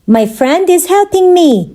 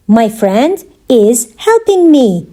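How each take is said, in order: First: Said in the usual way. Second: Slow, with pauses around "is"; measured word-by-word delivery; slow teaching repeat. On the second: Shown as a demonstration. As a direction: separate each part for learners. Teacher repeats answer slowly for learners.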